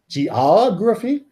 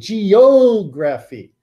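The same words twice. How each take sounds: First: The O vowel is short and unstressed. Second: The O vowel is long, as in geo. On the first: "The accent moved and that O got shortened" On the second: "What happened to my long O from my geo?"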